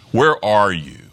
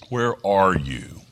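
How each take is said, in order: First: Louder call with "where" raised and a falling end. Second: Gentle question. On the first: Preacher voicing God calling out loudly to hidden Adam. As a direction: call it out across the garden. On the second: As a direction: ask it tenderly and slowly. God calling Adam, first take. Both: Acted.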